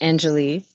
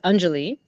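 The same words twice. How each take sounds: First: The name is said with an American pronunciation. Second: The name is said with an Indian pronunciation. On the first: This is how the family said it in Chicago. "we said it as Anjali" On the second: This is the name's original pronunciation. "it is pronounced as Anjali"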